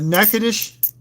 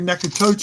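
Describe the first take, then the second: First: It is said in the local pronunciation. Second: It is said in an outsider pronunciation. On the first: This is how the locals say it. The speaker calls it right. "We got Natchitoches" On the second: This is how outsiders say it. The speaker calls it wrong. "I hear Nakatocho"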